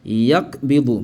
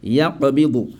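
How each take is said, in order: First: "yakbidu" with a stopped k, yak-bidu; no release after the k of "yakbidu"; without qalqala. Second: "yakbidu" with the k a bounced q, ya-qa-bidu; qalqala. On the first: Teacher shows what she doesn't say, without qalqala. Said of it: "je ne dis pas". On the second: Teacher shows what to say, qalqala. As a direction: echo into a short vowel inside "yakbidu". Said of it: "mais je dis". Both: Shown as a demonstration.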